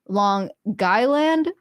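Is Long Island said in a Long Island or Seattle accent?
Long Island. It is said in a local Long Island accent. The speaker calls it right. "but apparently it's"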